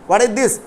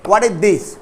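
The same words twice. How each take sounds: The two takes are said the same way.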